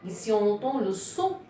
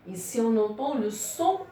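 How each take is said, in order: Both takes have the same delivery.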